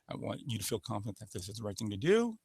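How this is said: The pitch rises at the end like a question. The speaker sounds unsure, creating doubt. "So your voice goes up at the end"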